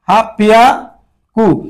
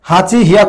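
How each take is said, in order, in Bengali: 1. দ্বিতীয় অংশটি দ্বিত্ব p ধ্বনি দিয়ে শুরু হয়। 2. দ্বিতীয় অংশটি h ধ্বনি দিয়ে শুরু হয়। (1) "ওরা বলতেছে হাফ পিয়াকু" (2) "হাঁচি হিয়াকু হওয়ার কথা ছিল"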